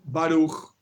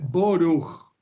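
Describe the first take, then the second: First: It is said in the modern Hebrew way. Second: It is said in a Russian-style Ashkenazi way. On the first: "En hebreo moderno se dice así"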